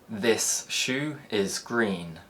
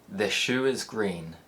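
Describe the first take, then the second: First: The s in 'this' stays a clear s. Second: The s in 'this' turns into sh.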